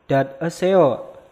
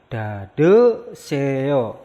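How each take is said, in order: First: Dad eseo said slowly and split apart; slow separate syllables. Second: Dade seo said joined, the d carried over; linked pronunciation. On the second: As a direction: run it together as dade seo. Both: Shown as a demonstration. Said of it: "maka dibacanya".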